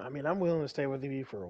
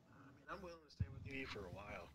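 First: Said in the usual way. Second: Distant and much softer; away from mic. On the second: Shown as a demonstration. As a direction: say it from across the room. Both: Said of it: "make sure your voice is being picked up".

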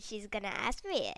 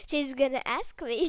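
First: Said in the usual way. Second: Emphatic louder repeat. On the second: Real, not acted. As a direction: blurt it out louder. Louder retake.

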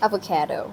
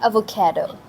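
First: Quiet avocado with the wrong stress; softer avocado as the mistake; wrong version. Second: Avocado. with the stress on the kae sound; Avocado. with the stress on the middle; right version. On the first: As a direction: mutter the avocado you should not say. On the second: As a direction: correct the word to Avocado. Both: Shown as a demonstration. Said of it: "Not avocado".

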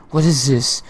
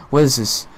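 No difference in how they are said.

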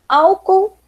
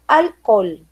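First: Said in the usual way. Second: "alcool" as al-KOL, falling, clear L; Spanish pronunciation. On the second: Shown as a demonstration. Teacher repeating for students, "alcool" as Spanish al-KOL. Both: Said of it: "de novo falando".

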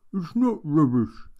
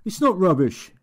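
First: Said in the usual way. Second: Much higher, louder protest of It's not rubbish; shout. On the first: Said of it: "said Steve". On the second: Acted. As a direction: burst out defending the book. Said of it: "shouted Steve".

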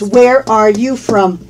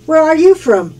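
First: Slow, measured teacher's question; deliberate, careful "Where are you from"; slow model. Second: Said in the usual way. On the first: Shown as a demonstration. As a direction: space out each word for learners. Slow model before natural-speed repeat.

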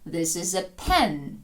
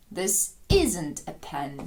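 First: "pen" carries the beat, with a falling tune; stress on "pen". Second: Slow teacher demo, punch "isn't"; stress on "isn't". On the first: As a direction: keep "this is a" light, hit "pen". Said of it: "удар падає на назву предмета". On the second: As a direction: hit "isn't" as if struck. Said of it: "Наче воно під ударом". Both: Shown as a demonstration.

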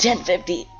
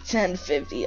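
First: High shouted radio call; panicked shout. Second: Said in the usual way. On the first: Real, not acted. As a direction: yell the code, panicking.

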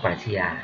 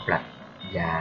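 First: ปรัชญา read in four syllables as ปรัด-ชะ-ยา, with ช clearly sounded; full formal reading. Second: ปรัช ญา said short as ปรัด-ยา, with the ช dropped; the casual two-beat ปรัชญา most Thais use; everyday reading. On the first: Lecturer showing students the formal reading of ปรัชญา. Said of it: "ทีนี้ออกเสียงว่าปรัชญา". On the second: Lecturer giving his own everyday reading of ปรัชญา. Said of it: "แต่ส่วนใหญ่ผมจะออกเสียงว่า". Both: Shown as a demonstration.

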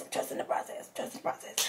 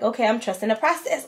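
First: Whispered to herself, much softer. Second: Said in the usual way. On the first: Retold or imitated. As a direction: whisper it like a private self-reassurance. Repeats line, then whispers it.

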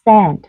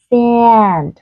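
First: A quick relaxed e in SEND, no nasal twang; âm e bình thường. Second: SAND drawn out, tense a sliding like "si-an"; căng miệng. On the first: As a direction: SEND with a short, plain e. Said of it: "Từ thứ nhất là từ gửi đi". (SEND đọc âm e bình thường) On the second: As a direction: stretch the vowel of SAND, mouth pulled tight. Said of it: "Từ thứ hai các bạn cũng căng miệng lên". (SAND âm a căng, kéo dài) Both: Shown as a demonstration.

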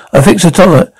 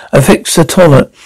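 First: Said in the usual way. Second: Low sexy voice. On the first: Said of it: "Could you say that in the low". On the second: Acted. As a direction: lay it on low and sultry. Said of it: "Could you say that in the low, that low, slow, deep, low, deep, sexy voice again?".

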